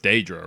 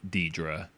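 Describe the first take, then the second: First: The first syllable sounds like 'day'. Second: The first syllable does not sound like 'day'. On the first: This is how another game says it. "in Skyrim it's Daedra, right? It's like day" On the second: This is how one game says it. "they pronounce it like Daedra in this game"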